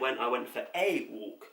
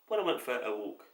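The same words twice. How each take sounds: First: The word 'a' is said clearly on its own. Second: The word 'a' is blurred into 'for'. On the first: The speaker calls it right. "it should say" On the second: The speaker calls it wrong. "we don't pronounce it correctly"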